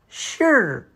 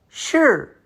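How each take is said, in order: First: The ending has only a slight r sound. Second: The ending has only a slight r sound.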